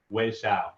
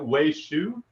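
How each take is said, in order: First: The surname ends with an 'ow' vowel. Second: The surname ends with an 'oo' vowel. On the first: The speaker calls it right. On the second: The speaker calls it wrong. "Shu, not so much"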